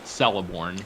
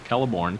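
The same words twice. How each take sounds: First: The name begins with a soft S sound. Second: The name begins with a hard K sound. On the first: The speaker calls it wrong. "pronounced Celeborn incorrectly" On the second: The speaker calls it right. "a hard C is in cat"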